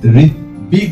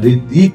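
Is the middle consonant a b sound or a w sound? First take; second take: b sound; w sound. First: The middle consonant is a b sound. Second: The middle consonant is a w sound. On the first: The speaker calls it wrong. "বলি না" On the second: The speaker calls it right. "ওয়া উচ্চারণ"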